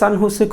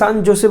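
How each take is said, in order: First: The second word starts with an h sound. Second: The second word starts with a j sound. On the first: "তারা ওইদিকে জটাকে হ বলে"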